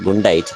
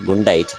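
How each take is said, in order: First: The d and n sounds swap places. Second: The d and n sounds swap places.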